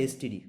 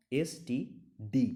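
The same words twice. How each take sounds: First: Said in the usual way. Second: এসটিডি spelled out very slowly, each letter apart. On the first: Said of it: "এস আলাদা করে উচ্চারণ করতে". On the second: Shown as a demonstration. Teacher showing students that এসটিডি is read letter by letter, very slow. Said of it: "এসটিডি আলাদা করে উচ্চারণ করতে হচ্ছে".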